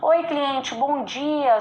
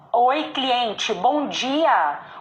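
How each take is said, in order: First: The words are mumbled with little mouth movement. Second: The words are clearly articulated with an open mouth. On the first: The speaker calls it wrong. "Para de falar pra dentro" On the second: The speaker calls it right. "abre a boca, abre a boca"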